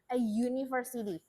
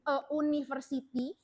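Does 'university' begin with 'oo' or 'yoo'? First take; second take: yoo; oo. First: University begins with a y sound. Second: University begins with a plain oo vowel. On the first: The speaker calls it right. "how to pronounce that" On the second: The speaker calls it wrong. "cara membacanya bukan"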